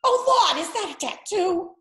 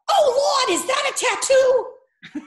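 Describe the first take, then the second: First: High, horrified Boston mother; horrified Boston mom, higher; Boston accent. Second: High, horrified Boston mother; shocked Boston mom, high and loud; Boston accent. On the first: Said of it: "Just horrified". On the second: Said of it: "who had a big Boston accent". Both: Retold or imitated.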